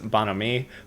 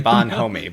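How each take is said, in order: First: It is said French-style, without 'homie'. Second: It is said like English 'bon' plus 'homie'. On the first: The speaker calls it right. "the correct pronunciation is bonhomie" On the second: The speaker calls it wrong. "spelled like bon homie, like the B O N and then homie"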